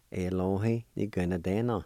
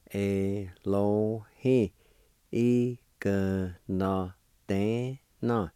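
First: Said in the usual way. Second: Very slow, syllables drawn out and separate. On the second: Shown as a demonstration. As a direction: stretch "Elohi. Igno de na" piece by piece.

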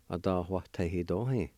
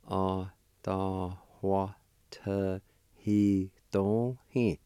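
First: Said in the usual way. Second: Adawatehidohi drawn out very slowly, syllable by syllable; teacher slowing Adawatehidohi right down; slow, broken into syllables. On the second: Shown as a demonstration. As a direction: stretch each syllable of Adawatehidohi for the learner. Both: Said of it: "It's pronounced like this".

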